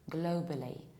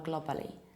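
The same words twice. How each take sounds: First: The first vowel is said with rounded lips. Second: The first vowel is unrounded, foreign-sounding. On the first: The speaker calls it right. "You round it" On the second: The speaker calls it wrong. "But this is not the correct one"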